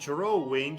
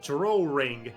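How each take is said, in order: First: It is said with no R sound inside. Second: It is said with an added R sound inside. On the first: "instead of saying drawing" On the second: "you say drawing. Where does the R come from?"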